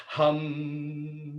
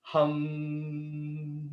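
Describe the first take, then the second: First: Loud hum. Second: Soft long hum; humming. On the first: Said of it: "do it as loud as you can". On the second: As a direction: hum like bees. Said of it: "bring that right up into your mouth". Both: Shown as a demonstration.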